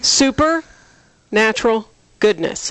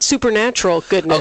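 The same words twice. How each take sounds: First: The phrase is said slowly and deliberately. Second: The phrase is said at a normal pace. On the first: The slogan means super natural, not supernatural. The speaker calls it right. "That's why I said it slowly" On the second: The slogan means something supernatural. The speaker calls it wrong. "Not supernatural goodness"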